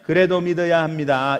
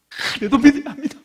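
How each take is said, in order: First: It is said flatly, without feeling. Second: It is said expressively, with nuance.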